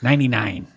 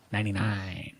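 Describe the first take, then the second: First: Said in the usual way. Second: Softly to himself; quiet muttered repeat. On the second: Real, not acted.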